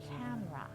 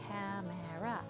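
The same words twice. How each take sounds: First: The middle syllable is dropped, leaving two. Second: All three syllables are pronounced fully. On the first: The speaker calls it right. "disappearing the middle syllable" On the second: The speaker calls it wrong. "a lot of people who are learning English will say it just like that"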